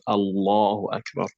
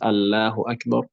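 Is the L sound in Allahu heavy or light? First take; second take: heavy; light. First: The L sound in Allahu is heavy and dark. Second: The L sound in Allahu is light and thin. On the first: The speaker calls it right. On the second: The speaker calls it wrong.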